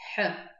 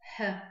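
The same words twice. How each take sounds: First: It sounds like the Abazin kh sound. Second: It sounds like a light English h. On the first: "А на абазинском получается х" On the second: "от английского звука, ну, как, например, в слове happy"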